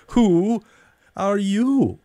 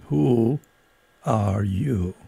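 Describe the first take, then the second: First: Higher, scornful demand; scornful question. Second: Slow, drowsy caterpillar drawl; languid, sleepy. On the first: Caterpillar challenging Alice again, scornful. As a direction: look down on her. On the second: Caterpillar addressing Alice, languid and sleepy. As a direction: let it drift out lazily. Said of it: "a languid, sleepy voice". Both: A narrator's reading.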